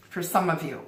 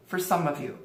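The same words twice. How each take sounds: The two takes are said the same way.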